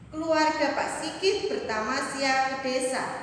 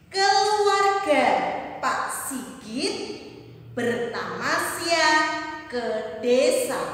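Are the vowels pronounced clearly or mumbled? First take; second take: mumbled; clear. First: The vowels are mumbled with the mouth barely open. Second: The vowels are clear with the mouth wide open. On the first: The speaker calls it wrong. "Mana lafal yang tepatnya?" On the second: The speaker calls it right. "Mari kita buka mulutnya bersama-sama ketika membaca agar lafalnya jelas"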